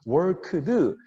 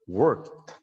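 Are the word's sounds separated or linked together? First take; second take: separated; linked. First: Each sound is pronounced separately and distinctly. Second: The final sounds blend together as one. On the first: The speaker calls it wrong. "worked 이렇게 발음하면 되게 클리어할 것 같은데" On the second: The speaker calls it right. "하나로 worked 이렇게"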